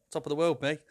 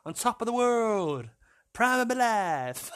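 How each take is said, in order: First: Said in the usual way. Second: Drawn-out, higher mock boast; hammed-up exuberance. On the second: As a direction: stretch it out high, playfully over the top. Hams up the phrase, stretched out.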